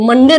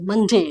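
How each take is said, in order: First: मंडे with a plain hard d; everyday mispronunciation. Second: मंडे ending in a softened "jay" sound; corrected pronunciation. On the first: Teacher showing learners what to avoid, everyday mispronunciation. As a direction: say मंडे the everyday Hindi way, "man-de". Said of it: "तो मंडे नहीं बोलना है आपको". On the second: Teacher correcting learners' Monday, corrected pronunciation. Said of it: "मंडे नहीं बोलना है आपको". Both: Shown as a demonstration.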